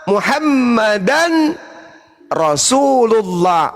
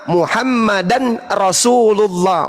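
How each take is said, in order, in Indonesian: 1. Ada jeda setelah Muhammadan. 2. Langsung nyambung, tanpa jeda. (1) "menunggu orang yang bersyahadat mengucapkan Muhammadan baru kita lanjut Rasulullah, itu nggak apa-apa" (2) "Yang salah itu kalau saya lanjut"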